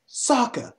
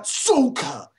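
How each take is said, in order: First: "Sokka" with an open "sock" vowel; correct Sokka pronunciation. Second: "Sokka" drawn out as "SOH-kuh"; mispronounced Sokka. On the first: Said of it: "the way that you pronounce the names". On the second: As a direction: stretch a long "oh" in "Sokka". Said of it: "not Sokka". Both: Shown as a demonstration.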